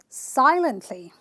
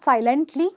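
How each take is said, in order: First: The stress is on the first syllable. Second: The stress is on a later syllable. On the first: The speaker calls it right. "I will stress on the first syllable, which is sigh" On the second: The speaker calls it wrong. "not silently"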